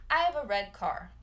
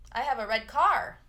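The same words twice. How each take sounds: First: "have" and "red" lead, "car" stays light; calm fix with the weight off car; corrected stress. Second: "car" pushed up and loud instead of "red"; rising push on car, the wrong way; wrong stress on car. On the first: Teacher shows students the right stress after the wrong one. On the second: Teacher shows students the wrong way, stressing car. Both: Shown as a demonstration.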